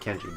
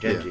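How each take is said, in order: First: The name starts with a hard K sound. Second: The name starts with a voiced G sound. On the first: The speaker calls it wrong. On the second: The speaker calls it right.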